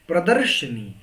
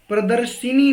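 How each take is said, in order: First: No vowel sound follows darsh. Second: A short i vowel follows darsh. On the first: The speaker calls it right. "बल्कि प्रदर्शनी होता है" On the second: The speaker calls it wrong. "प्रदर्शिनी नहीं, यानी छोटी की मात्रा गलत है"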